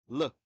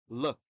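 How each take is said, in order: The two takes are said the same way.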